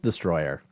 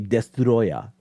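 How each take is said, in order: First: It is said in a quick, casual way. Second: It is said in a careful, precise way. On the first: It is a quick everyday mention. "if it's a quick conversation" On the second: The speaker is showing off exact knowledge. "it's actually destroyer"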